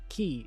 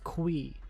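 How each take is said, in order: First: The name begins with a plain 'k' sound. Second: The name begins with a 'kw' sound. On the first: The speaker calls it wrong. "it's not key" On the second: The speaker calls it right. "it's qui, like queer"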